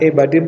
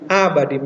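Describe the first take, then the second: First: The first vowel sounds like E. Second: The first vowel sounds like A. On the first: The speaker calls it wrong. "Ini bukan E badim" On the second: The speaker calls it right. "tapi abadim"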